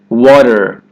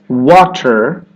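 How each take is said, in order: First: The middle T is a quick D-like flap. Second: The middle T is a crisp, released T. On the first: The speaker calls it right. "do you hear that flat G in the D sound?" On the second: The speaker calls it wrong. "Instead of water"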